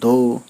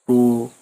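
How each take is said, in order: First: The first sound is clear, made against the teeth. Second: The first sound is blurred, as if toothless. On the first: "दांत से ही बोलते हैं" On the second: "बिना दांत के देखिए कैसे बोलेंगे आप"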